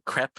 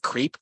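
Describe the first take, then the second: First: The vowel is a short 'eh' sound. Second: The vowel is a long 'ee' sound. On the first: This is how others say the name. The speaker calls it right. "you all pronounced it like or crepe, I think C R E P, like a soft E" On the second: This is how the speaker first imagined the name. The speaker calls it wrong. "I always pronounce it creep"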